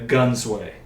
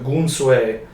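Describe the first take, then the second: First: The name is said in an anglicized pronunciation. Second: The name is said in an Indian-style pronunciation. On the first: This is the later form the name took in English. "English rolled around and it became the Gunsway" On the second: This is the original form of the name. "it's like pronounced the Gunsui. It's pronounced it's uh Indian"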